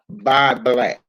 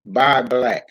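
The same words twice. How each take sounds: The two takes are said the same way.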